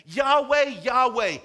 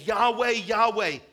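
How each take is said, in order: First: Yahweh, Yahweh called out loud and high; shouted proclamation. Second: Yahweh, Yahweh drawn out slowly and weighted; slow emphatic call. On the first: God proclaiming his name to Moses, in a loud high call. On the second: Preacher voicing God, slowly stressing Yahweh, Yahweh. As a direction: lean slowly on each Yahweh. Preacher repeats God's name. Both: Acted.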